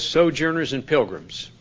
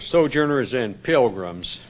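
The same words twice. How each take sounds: First: It is read in the speaker's ordinary voice. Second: It is said in an imitated drawling cowboy voice.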